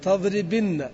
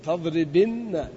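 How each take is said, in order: First: Said in the usual way. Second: تضربن said again very slowly, doubled nun held; slow repeat. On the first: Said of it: "فنقول إيش؟". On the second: Shown as a demonstration. Teacher repeating the final form slowly for students.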